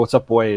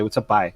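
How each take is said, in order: First: It is said with a standard accent. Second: It is said with a Newfoundland accent.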